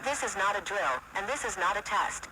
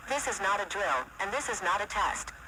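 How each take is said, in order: Both takes have the same delivery.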